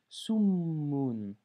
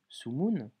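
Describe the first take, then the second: First: The m sound is held long and doubled. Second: The m sound is short and single. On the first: The speaker calls it right. "J'ai insisté sur la consonne, j'ai doublé la consonne" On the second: The speaker calls it wrong. "je n'ai pas lu Sumun"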